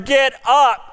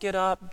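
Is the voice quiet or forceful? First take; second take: forceful; quiet. First: It is said in a loud, urgent voice. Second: It is said in a small, quiet voice. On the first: The command is urgent and must be obeyed now. The speaker calls it right. "No, that angel was there" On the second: The command sounds mild and unimportant. The speaker calls it wrong. "read it with a small little voice"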